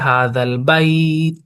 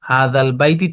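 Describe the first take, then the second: First: The phrase stops on the final consonant. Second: The phrase ends with a short final vowel. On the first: "তায়ের উপরে সাকিন দিয়ে অক্ফ করেছি হাদাল বাইত" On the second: "প্রথমে আমাদের বানান হয়েছে হাদাল বাইতি"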